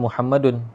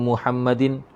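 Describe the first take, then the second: First: The word ends with an -un sound. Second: The word ends with an -in sound. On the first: The speaker calls it right. "kalau baris yang betul Muhammadun" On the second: The speaker calls it wrong. "Kenapa barisnya begini ya?"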